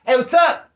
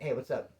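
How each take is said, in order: First: Loud, high, rising hail; punchy shouted hello; called-out greeting. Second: Soft, lower-pitched hello; understated, muted greeting; low-key greeting. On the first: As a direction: holler it to someone across the way. Same greeting called out loudly. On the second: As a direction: toss it off quietly in passing. Demonstrating his low-key greeting. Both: Retold or imitated.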